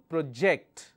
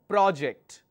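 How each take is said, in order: First: The stress is on the second syllable. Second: The stress is on the first syllable. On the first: It is a verb. "When your stress is on the second syllable, it is a verb" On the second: It is a noun. "When the stress is on the first syllable, it's a noun"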